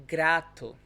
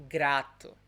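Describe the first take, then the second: No difference in how they are said.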